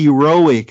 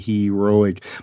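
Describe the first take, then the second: First: The word is said quickly after stumbling. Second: The word is said slowly and carefully.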